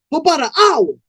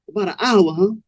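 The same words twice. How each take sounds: First: Put-on high-pitched young dude's voice; young man answering. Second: Cool pimp echoing. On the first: Young man answering Cold Blood's question, high-pitched. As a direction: answer up high, a bit defensive. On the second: Acted. Cold Blood checking the young man's answer, cool echo. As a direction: echo it back coolly, sizing him up.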